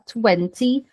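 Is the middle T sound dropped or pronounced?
pronounced. The middle T sound is clearly pronounced. This is how British speakers say it. "no inglês britânico, ou seja, na Europa, por exemplo, eles vão prezar o som da letra T"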